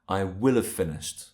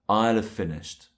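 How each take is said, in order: First: 'Will' is said in full and sounds strong. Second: 'Will' is contracted and squeezed onto 'I'. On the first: It emphasizes that the action will be done. "This makes will sound stronger" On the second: It is the usual, quicker everyday way to say it. "it's more common when we're speaking to say I'll have finished"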